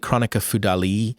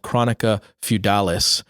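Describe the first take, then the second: First: It is said with a French-style pronunciation. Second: It is said with an American pronunciation. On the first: "It's probably Chronica Feudali, technically" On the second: "I'm an American, so I'm going to say it that way"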